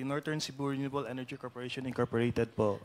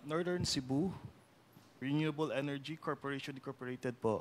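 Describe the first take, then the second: First: The name is said at normal speed. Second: The name is said slowly.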